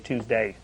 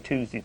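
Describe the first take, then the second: First: The final syllable is a full, clear 'day'. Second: The final syllable is reduced, not a full 'day'. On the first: The speaker calls it right. "but now I say" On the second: The speaker calls it wrong. "I wasn't saying day on the end of, of Tuesday. I used to say"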